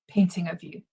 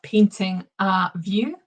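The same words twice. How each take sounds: First: It is said quickly with reduced, linked sounds. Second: It is said slowly with clear separate words.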